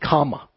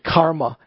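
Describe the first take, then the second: First: The word is said without an r sound. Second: The word is said with an r sound. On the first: This is the simplified Pali form of the word. "in Pali, it's kama" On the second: This is the Sanskrit form of the word. "Instead of saying karma"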